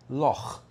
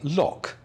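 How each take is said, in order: First: The word ends with a raspy throat sound. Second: The word ends with a hard k sound. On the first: This is how it should be said. The speaker calls it right. "when they should be saying loch" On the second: This is how non-Scottish people say it. The speaker calls it wrong. "why do non-Scottish people say loch"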